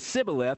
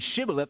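First: The word begins with an s sound. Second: The word begins with an sh sound. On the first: This is the Ephraimite pronunciation. "they would pronounce an SH like an S" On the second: This is the Gileadite pronunciation. "Instead of saying Shibboleth"

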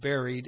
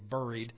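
First: It is said with an Indiana pronunciation. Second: It is said with a Pennsylvania pronunciation. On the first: This is how the speaker says it. "I'll probably say buried" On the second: This is how the audience says it. "you will say buried ... You talk funny in Pennsylvania"

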